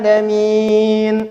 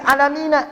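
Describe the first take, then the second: First: The word ends on the consonant n. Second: The word ends with an extra final a vowel. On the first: The speaker calls it right. "in, na-nya enggak bunyi" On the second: The speaker calls it wrong. "maka a-nya tidak usah dibaca"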